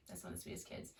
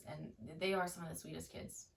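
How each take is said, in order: First: Soft whispered echo; whispered repeat. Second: Said in the usual way. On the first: Real, not acted. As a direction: whisper it back tenderly. Repeats line, then whispers it.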